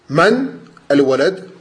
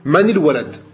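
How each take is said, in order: First: The words are said apart without a linking vowel. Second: The words are joined by a linking i vowel. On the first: "sans liaison" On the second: "si jamais tu fais la liaison, tu vas dire man il walad. Tu vas mettre une kasra"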